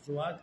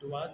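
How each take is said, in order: First: The word begins with a z-like sound. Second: The word begins with a plain d sound. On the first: The speaker calls it right. "बल्कि जुआत को जुआत कहें" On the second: The speaker calls it wrong. "जुआत को सिर्फ हम दुआत ना कहें"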